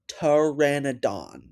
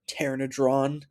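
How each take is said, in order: First: No r follows the d in the last syllable. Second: An extra r follows the d in the last syllable. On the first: The speaker calls it right. "It's pteranodon" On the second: The speaker calls it wrong. "Did you just call it a pteranodron?"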